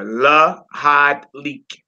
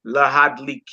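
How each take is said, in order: First: Lahad Leak stretched out slowly and clearly; slow teaching model. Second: Said in the usual way. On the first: Shown as a demonstration.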